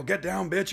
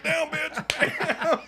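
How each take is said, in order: First: Instructed line, yell. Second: Slow, much higher laughing mock yell; hammed-up yell. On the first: Retold or imitated. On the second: New actor kicking down the door at the woman, hammed-up and slow. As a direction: stretch out the yell like a clumsy action hero. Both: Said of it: "you're gonna yell".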